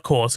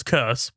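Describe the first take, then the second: First: Said in the usual way. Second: "curse" said as curse, not as "course"; the word "curse". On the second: Shown as a demonstration. Correcting the reviewer's misspelling, "curse" said as curse. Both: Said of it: "not course, curse".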